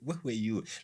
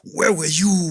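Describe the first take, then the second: First: It is spoken calmly, as a plain question. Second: It is spoken in an angry, booming way. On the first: It is just a general question. The speaker calls it right. "He's not doing it in an angry tone" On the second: It is a furious rebuke. The speaker calls it wrong. "I don't think that's that's what God was saying"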